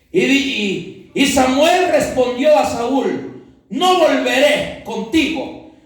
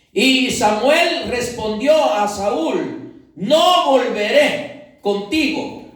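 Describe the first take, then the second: Both takes have the same delivery.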